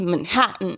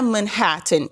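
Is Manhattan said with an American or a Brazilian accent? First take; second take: American; Brazilian. First: It is said with an American English accent. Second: It is said with a Brazilian Portuguese accent. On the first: The speaker imitates a native English speaker. "is Manhattan" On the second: The speaker keeps their own cultural identity. "o professor fala que não é Manhattan"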